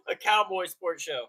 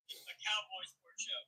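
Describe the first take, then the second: First: Said in the usual way. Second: Much softer repeat of the phrase; quiet echo. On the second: Shown as a demonstration. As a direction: echo it back softly, like an afterthought. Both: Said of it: "Echo that sentiment".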